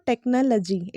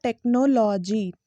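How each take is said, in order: First: "टेक्नोलॉजी" as tek-nuh-luh-jee; correct pronunciation. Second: "टेक्नोलॉजी" slowly broken as tek-no-law-jee; wrong pronunciation. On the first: Teacher sums up the right way, "टेक्नोलॉजी" as tek-nuh-luh-jee. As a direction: keep "टेक्नोलॉजी" short in the middle, uh-uh. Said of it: "it's लजी". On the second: Teacher contrasts the mistake, "टेक्नोलॉजी" mispronounced tek-no-law-jee, slow. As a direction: drag out the full vowels of "टेक्नोलॉजी". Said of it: "it's not". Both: Shown as a demonstration.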